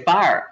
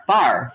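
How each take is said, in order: First: "fire" said the Pittsburgh way, one flat syllable "far". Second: "fire" said the standard way, two syllables "fi-er". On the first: Showing how back home they say "fire", Pittsburgh flat. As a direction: say "fire" like a Pittsburgher, vowel flattened. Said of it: "like we say, fire". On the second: Setting standard "fire" against the Pittsburgh one, plain and clear. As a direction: give "fire" its full American two-beat sound. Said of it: "fire for fire". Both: Shown as a demonstration.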